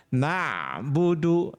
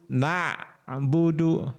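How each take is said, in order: The two takes are said the same way.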